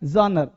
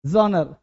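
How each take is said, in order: The two takes are said the same way.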